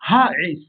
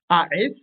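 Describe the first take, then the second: First: The word begins with a breathy h sound. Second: The word begins directly with a vowel. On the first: The speaker calls it right. "mais Haes" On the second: The speaker calls it wrong. "On ne dira donc pas Aes"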